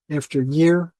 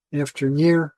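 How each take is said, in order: Both takes have the same delivery.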